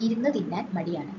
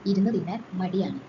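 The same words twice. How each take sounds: The two takes are said the same way.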